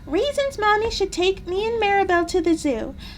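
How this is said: It is read in a put-on character voice.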